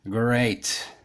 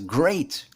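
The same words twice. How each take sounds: First: The pitch falls on the word. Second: The pitch rises on the word. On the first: The speaker means it is not great. "the intonation goes down" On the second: The speaker sincerely means it is great. "normally the tone rises, goes up"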